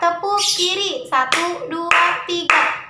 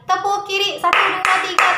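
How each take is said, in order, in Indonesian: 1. Ini diucapkan dengan kecepatan normal dan sedang. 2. Ini diucapkan dengan kecepatan yang jelas lebih cepat. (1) "normal ya kecepatannya" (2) "sekarang harus lebih cepat"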